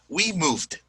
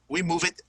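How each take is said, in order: First: The verb ends with a plain d sound. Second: The verb ends with an extra syllable. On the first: The speaker calls it right. "it's going to just pronounce the D" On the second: The speaker calls it wrong. "it disrupts the fluency"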